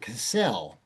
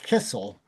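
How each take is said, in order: First: The stress is on the second syllable. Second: The stress is on the first syllable. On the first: The name sounds less German, maybe French. "by moving the accent from the first syllable to the second syllable" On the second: The name sounds German. "It had been pronounced Kissel"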